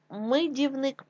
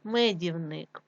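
First: Мидівник with и instead of е; wrong variant мидівник, first vowel и; и in first syllable. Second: Said in the usual way. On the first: Shown as a demonstration. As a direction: say мидівник with short i after М. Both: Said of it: "від слова мед".

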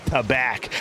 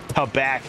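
Both takes have the same delivery.

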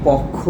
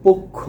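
First: পক্ষ with open first vowel, "pawkkho"; open-vowel mispronunciation. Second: পক্ষ as "pokkho", first vowel a closed o; closed o pronunciation. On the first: Teacher shows what many of us say, পক্ষ as "pawkkho". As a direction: say পক্ষ as "pɔkkho", jaw dropped on the first vowel. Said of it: "এটা পক্ষ না". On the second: Teacher gives students the correct form, পক্ষ as "pokkho". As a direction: say পক্ষ with rounded o as in "go". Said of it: "তাকে আমরা কি বলবো". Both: Shown as a demonstration.

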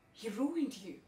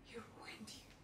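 First: Bitter accusation. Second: Barely audible whisper; very soft, all breath; hushed whisper. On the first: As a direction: stress RUINED, voice rising on it. Monologue, repeated line, first take voiced. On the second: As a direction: whisper it to yourself. Monologue, repeated to herself, whispered. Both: Acted.

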